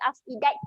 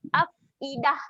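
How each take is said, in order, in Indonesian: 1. Kata ini berakhir dengan bunyi 't'. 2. Kata ini berakhir dengan bunyi 'h' yang lembut. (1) "jangan bunyi afidat" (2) "kita akan gantikan dia dengan huruf ha yang mati"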